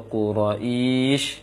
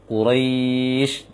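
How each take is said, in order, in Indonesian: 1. Bunyi vokal tambahan disisipkan sebelum bunyi akhir. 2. Vokal panjang langsung menyambung ke bunyi akhir. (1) "seakan-akan menambah uh, ya kasroh atau hamzah kasroh ... itu keliru" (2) "Seharusnya setelah ro langsung dilinkan dia, dipanjangkan"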